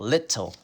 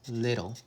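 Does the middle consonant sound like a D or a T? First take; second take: T; D. First: The middle consonant is a clear T sound. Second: The middle consonant sounds like a D. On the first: The speaker calls it wrong. "It looks like it like we would say it little" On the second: The speaker calls it right. "but it's little"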